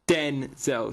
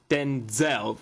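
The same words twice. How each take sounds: First: The stress is on the first syllable. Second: The stress is on the second syllable. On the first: "so stressing the den" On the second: "stressing the Zel"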